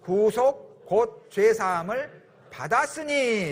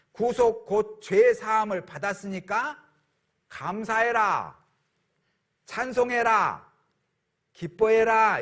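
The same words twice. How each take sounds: First: Slow, deliberate reading together; slow scripture reading. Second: Slow, rising proclamation; proclaiming scripture. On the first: Real, not acted. Pastor leading the congregation in reading the verse, slow. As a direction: draw each word out as scripture. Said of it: "같이 읽겠습니다". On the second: Shown as a demonstration. Pastor proclaiming the verse commands thanks and praise, rising. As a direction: proclaim it joyfully, word by word. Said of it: "이렇게 말씀하시는 거예요".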